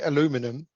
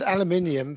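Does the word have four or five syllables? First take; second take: four; five. First: The word is said with four syllables. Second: The word is said with five syllables. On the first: This is how the listeners' country says it. "why you guys call it aluminum" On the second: This is how the speaker's own country says it. "we've had aluminium for years"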